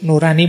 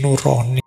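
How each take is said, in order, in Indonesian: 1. Vokal kedua adalah bunyi 'a' terbuka. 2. Vokal kedua adalah bunyi 'o' membulat. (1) "Itu nurani bahasa Indonesia ya" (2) "Kalau dibaca basa Jawa tadi nuroni"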